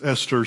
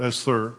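First: The middle consonant is a plain T sound. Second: The middle consonant is a TH sound. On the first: The speaker calls it right. "It's Esther, she tells me" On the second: The speaker calls it wrong. "not Esther"

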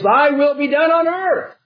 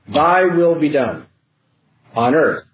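First: The words run together without a pause. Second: There is a pause after "done". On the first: The prayer asks for God's will to be done on earth. The speaker calls it right. "that all runs together" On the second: God's will being done and the mention of earth read as separate statements. The speaker calls it wrong. "Notice how we break "thy will be done" from "on earth as it is in heaven.""

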